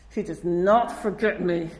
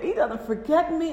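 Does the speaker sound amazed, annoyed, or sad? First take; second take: annoyed; amazed. First: It is said in an exasperated, annoyed tone. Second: It is said in an amazed, grateful tone. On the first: Being remembered feels like being pursued. "Why is he, like, following after me?" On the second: Being remembered is a wonderful gift. "It's amazing"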